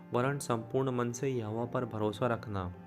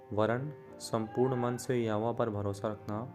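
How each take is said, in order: The two takes are said the same way.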